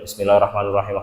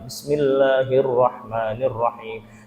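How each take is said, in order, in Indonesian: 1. Dibaca dengan cepat dan tergesa-gesa. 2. Dibaca dengan pelan dan hati-hati. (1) "Bacanya lari, tidak tartil" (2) "Dia benerin bacanya tartil"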